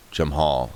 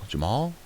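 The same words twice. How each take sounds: First: Said in the usual way. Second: "Jamal" rising high and softer-edged into a question. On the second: Real, not acted. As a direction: query the name "Jamal" with a big lift at the end. Name repeated as a question.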